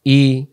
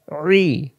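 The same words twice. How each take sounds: First: Clean open "ই"; "ই" without throat pressure; hamza i. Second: "রি" as pharyngeal ee, no r; squeezed ain i. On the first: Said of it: "Hamza এবং আইন অক্ষরের পার্থক্য". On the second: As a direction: press inside the throat for "রি". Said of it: "গলার ভিতরে চাপাচাপি হবে". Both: Shown as a demonstration.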